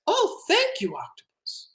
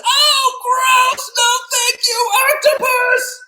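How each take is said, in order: First: Put-on high, soft little-boy voice; grateful boy. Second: Very high, disgusted screech; unhappy boy. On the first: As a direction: start high and fade into a whispery thanks. Boy gratefully accepts the bath. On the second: Acted. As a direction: squeal the refusal as a horrified child. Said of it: "the boy is not too happy about that".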